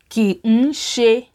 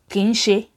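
First: The syllables are said separately and distinctly. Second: The syllables are run together like two words.

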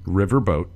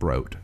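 First: The second part is said as plain 'boat'. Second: The second part is said with an R, 'broat'. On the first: The speaker calls it right. "We keep the R in the word river. We don't bring it over into boat" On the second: The speaker calls it wrong. "not broat"

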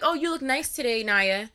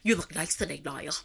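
First: It is said in a plain, normal voice. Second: It is said in a strange put-on voice.

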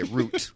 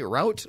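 First: It is said with a non-American pronunciation. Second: It is said with an American pronunciation.

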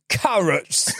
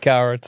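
First: It is said in a put-on British accent. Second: It is said in a plain American accent.

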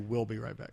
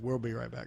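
First: The word we'll sounds like the word will. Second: The word we'll has an R-like sound in it. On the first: The speaker calls it right. "just say will" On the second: The speaker calls it wrong. "Being in the South, we almost put an R in there"

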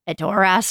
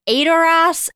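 First: The stress is on the last syllable. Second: The stress is not on the last syllable.

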